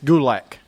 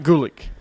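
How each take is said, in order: First: The last syllable sounds like 'lack'. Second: The last syllable sounds like 'lick'. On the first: The speaker calls it right. "It's Gulak" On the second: The speaker calls it wrong. "not Gulick"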